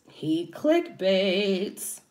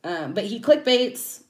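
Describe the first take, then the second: First: "He clickbaits" said very slowly, each syllable of "clickbaits" stretched; stress on "clickbaits". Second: Said in the usual way. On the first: Real, not acted. Vlogger repeating the accusation to viewers, slow and pointed. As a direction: drag out "clickbaits" to hammer it home. Complaining about rival YouTuber.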